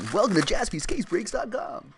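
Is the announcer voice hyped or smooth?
hyped. An energetic, punchy commercial radio announcer voice. "You want FM radio guy voice?"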